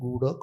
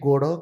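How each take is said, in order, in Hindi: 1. स्वर 'u' की ध्वनि है। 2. स्वर 'o' की ध्वनि है। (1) "ଉ ଉଚ୍ଚାରଣ ସ୍ୱାଭାବିକ କଥା" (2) "ଓ ତାଙ୍କୁ ଉଚ୍ଚାରଣ କରିବାରେ କଷ୍ଟ"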